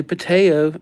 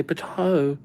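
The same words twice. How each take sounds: First: Pateo with a clear "tay" sound in the middle; pronounced Pateo. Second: Patao with an open "tah" sound in the middle; pronounced Patao. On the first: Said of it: "You say Pateo". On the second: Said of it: "and I say Patao". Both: Shown as a demonstration.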